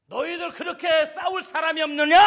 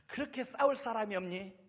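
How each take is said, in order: First: High, much louder taunting shout; Goliath shouting down at the frightened army; giant's roar. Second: Mild sneering taunt; Goliath mocking the army through David; mocking giant. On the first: Acted. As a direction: roar the dare at the whole army. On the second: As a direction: toss off the jeer with scorn. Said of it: "껄껄 웃어요".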